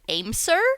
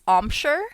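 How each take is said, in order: First: The middle consonant is a plain 's' sound. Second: The middle consonant is an 'sh' sound. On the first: The speaker calls it wrong. "I always said Aimser" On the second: The speaker calls it right. "it looks like it's Omshire"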